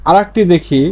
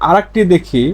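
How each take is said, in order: No difference in how they are said.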